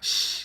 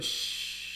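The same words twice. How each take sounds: First: The shush is sharp and scolding. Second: The shush is soft and soothing.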